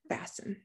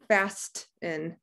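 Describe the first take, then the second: First: The T sound is left out in the middle. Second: The T sound is pronounced in the middle. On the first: The speaker calls it right. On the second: The speaker calls it wrong.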